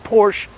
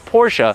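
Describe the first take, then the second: First: The name is said as one syllable. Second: The name is said as two syllables. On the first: The speaker calls it wrong. "it's not Porsche" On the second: The speaker calls it right. "that's how you're supposed to pronounce it"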